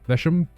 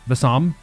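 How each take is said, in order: First: The middle consonant is a 'sh' sound. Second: The middle consonant is a plain 's' sound. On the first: "Is is the S H part wrong? The shush?" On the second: "Is it just S?"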